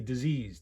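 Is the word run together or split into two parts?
run together. The word is said run together as one unit. It names a thing called an illness. The speaker calls it wrong. "they mispronounce the word all day"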